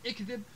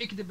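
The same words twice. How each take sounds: First: Said in the usual way. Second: اكذب opening straight on the kd cluster; unvowelled first consonant. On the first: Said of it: "بدل من اكذب". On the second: Shown as a demonstration. Teacher showing silent first vowel, اكذب as kdeb. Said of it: "إسكان الحرف الأول".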